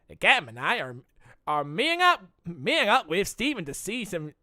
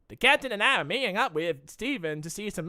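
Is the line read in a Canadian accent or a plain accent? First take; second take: Canadian; plain. First: It is read in an attempted Canadian accent. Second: It is read in the speaker's ordinary accent. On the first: The speaker calls it right. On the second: The speaker calls it wrong.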